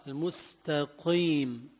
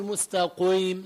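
First: Slower, softer المستقيم, lips unrounded on "qiim"; lightened ق. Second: مستقيم with a thick "qouiim"; over-thicken the ق of مستقيم with rounded lips; wrong rounded ق. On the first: Teacher correcting the mistake, slow lightened ق in المستقيم. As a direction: ease the ق of المستقيم but keep it a q. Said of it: "ما بقول مستقيم، لا". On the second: Teacher showing what not to say, heavy rounded ق in مستقيم. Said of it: "ما بقول مستقيم". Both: Shown as a demonstration.

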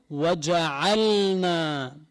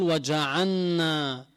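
First: وجعلنا slow, the lam clearly sounded; clear lam in waja'alna. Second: وجعلنا said as وجعنّا, lam swallowed into the nun; wrong merged lam. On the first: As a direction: pronounce the lam of وجعلنا distinctly. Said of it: "الصواب أن يظهر اللام". (إظهار اللام في وجعلنا) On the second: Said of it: "أدغم اللام بالنون". (وجعلنا بإدغام اللام خطأً) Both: Shown as a demonstration.

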